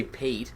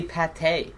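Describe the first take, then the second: First: Pate said like "pait", one syllable rhyming with plate; English pronunciation. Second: Pate said "pa-TAY", two syllables, French style; French pronunciation. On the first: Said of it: "you don't fucking say pate". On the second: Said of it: "You say it in a French accent". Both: Shown as a demonstration.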